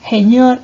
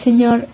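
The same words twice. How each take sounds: First: The first consonant is an aspirated h sound. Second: The first consonant is a hissed s sound. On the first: This is the jejeo pronunciation. "la aspiración de la S en posición inicial de sílaba" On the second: This is the standard pronunciation. "en lugar de"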